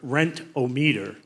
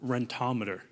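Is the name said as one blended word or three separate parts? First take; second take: separate parts; blended word. First: It is said as three separate parts. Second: It is said as one blended word. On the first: This is an accepted alternative form of the name. "How many people have heard of Rent-O-Meter?" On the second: This is the original form of the name. "Who has heard of Rentometer?"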